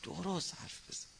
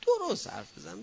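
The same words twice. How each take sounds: First: Quiet firm warning. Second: Higher and louder, cutting him off; sharp scolding. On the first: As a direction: say it softly but firmly. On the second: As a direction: snap it as a firm rebuke. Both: Shown as a demonstration. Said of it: "ببین".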